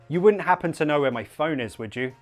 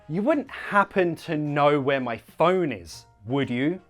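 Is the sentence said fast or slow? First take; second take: fast; slow. First: The sentence is spoken at a fast pace. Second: The sentence is spoken at a slow pace. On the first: "now faster" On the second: "we'll go slow first"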